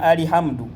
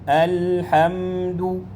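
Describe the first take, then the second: First: A short vowel is added after the l. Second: The l is held with no vowel after it. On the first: The speaker calls it wrong. "abamu basoma alihamdu" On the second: The speaker calls it right. "ginywezayo mu bufulumiro bwayo senga ebeerako sukun"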